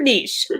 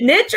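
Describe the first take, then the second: First: "niche" rhyming with leash; niche as "neesh". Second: "niche" rhyming with ditch; niche as "nitch". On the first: Host puts a pronunciation debate to co-host, "niche" as "neesh". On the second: Host puts a pronunciation debate to co-host, "niche" as "nitch". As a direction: say "niche" as "nitch", short i and hard tch. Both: Shown as a demonstration. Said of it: "that was another debate".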